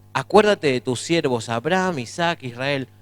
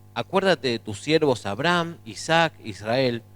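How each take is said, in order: Both takes have the same delivery.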